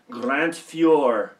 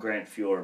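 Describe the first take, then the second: First: The name is said with a French accent. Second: The name is said with a plain English accent. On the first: "I like to say it with like a French accent" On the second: "we just call him Grant Fuhr"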